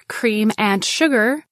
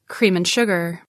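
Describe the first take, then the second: First: The word 'and' is said in full. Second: The word 'and' is reduced to n.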